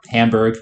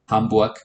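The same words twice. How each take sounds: First: It is pronounced the English way. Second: It is pronounced the German way. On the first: "the American slash English pronunciation" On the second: "but Hamburg"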